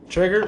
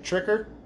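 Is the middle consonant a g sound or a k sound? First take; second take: g sound; k sound. First: The middle consonant is a g sound. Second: The middle consonant is a k sound. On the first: The speaker calls it right. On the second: The speaker calls it wrong.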